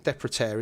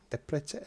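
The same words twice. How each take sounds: First: Said in the usual way. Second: Depreter with a slight Scouse lilt, tailing upward softly; accidental Scouse. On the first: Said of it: "I think that's right". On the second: Shown as a demonstration. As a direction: try the name, slipping into Scouse. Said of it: "That sounded Scouse then".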